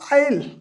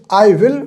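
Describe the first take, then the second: First: The words are shortened into one syllable. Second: Both words are said in full.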